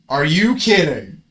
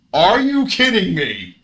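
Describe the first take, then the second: First: Loud, slow, drawn out protest; outraged. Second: Higher, loud, slow cry of disbelief; outraged disbelief. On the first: Player protesting the opponent's luck, loud and slow. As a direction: stretch it out in outrage. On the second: Player crying out at the opponent's luck, higher and loud. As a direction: stretch it up high in outrage. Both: Real, not acted.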